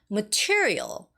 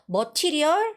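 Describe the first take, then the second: First: The stress is on the second syllable. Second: The stress is not on the second syllable. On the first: The speaker calls it right. "The second syllable" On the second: The speaker calls it wrong.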